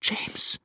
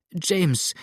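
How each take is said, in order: First: Faint, whispered name; breathed whisper. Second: High, imploring cry of his name; desperate pleading. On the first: Despairing Adele thinks James is lost, breathed whisper. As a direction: let his name out as mere breath. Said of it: "hauchte sie". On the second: Adele begging James to flee, desperate pleading. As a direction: implore him by name, pitch raised. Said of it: "flehte Adele jetzt in wilder Verzweiflung". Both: A narrator's reading.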